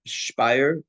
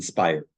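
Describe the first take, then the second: First: "Speyer" with a sh start, SHPY-er; German-style pronunciation. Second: "Speyer" with a plain s, SPY-er; English-style pronunciation. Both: Shown as a demonstration. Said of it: "I've heard different pronunciations".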